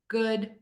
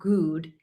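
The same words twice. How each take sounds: First: The vowel is said with slightly rounded lips. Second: The vowel is said with tense, puckered lips. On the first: The speaker calls it right. "It's in the middle, slightly rounded" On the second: The speaker calls it wrong. "It's not completely puckered and tense. It's not good"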